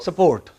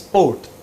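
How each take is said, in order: First: An extra vowel splits the s and p sounds. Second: The s and p sounds join with no vowel. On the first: "They pronounce it as" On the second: "they don't pronounce S P O R T as sport"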